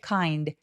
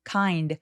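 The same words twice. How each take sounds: The two takes are said the same way.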